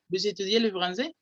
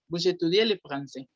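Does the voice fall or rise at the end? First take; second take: rises; falls. First: The pitch rises at the end. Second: The pitch falls at the end. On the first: It asks informally whether the listener studies French. "si subo la entonación, se vuelve pregunta" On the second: It states that the listener studies French. "Eso es una afirmación"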